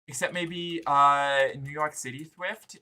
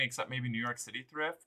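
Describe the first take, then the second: First: It is said in a cutesy, babyish put-on voice. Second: It is said in a normal speaking voice. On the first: The speaker calls it right. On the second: The speaker calls it wrong.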